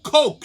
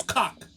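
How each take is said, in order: First: "Coke" loud and high, with a long O; correct pronunciation. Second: "Cock" with an open AH vowel, mimicking; mispronounced Coke. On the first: Retold or imitated. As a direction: model "Coke" firmly with an OH vowel. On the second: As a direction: echo "Cock" with AH in place of OH. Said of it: "She says".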